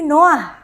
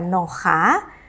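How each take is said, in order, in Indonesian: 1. Vokal a datang sebelum h. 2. Vokal a datang setelah h. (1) "tapi Noah" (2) "tidak dibaca Noha"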